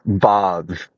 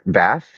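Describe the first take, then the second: First: It is said with an English accent. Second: It is said with an American accent.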